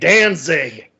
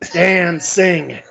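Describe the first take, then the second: First: The two words run together into one word. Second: The two words are said apart with a break. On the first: "he just blurs it all together" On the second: "he keeps just saying these words"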